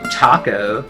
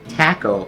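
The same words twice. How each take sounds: First: It is said the ordinary California way. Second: It is said the joked Michigan way, like tackle.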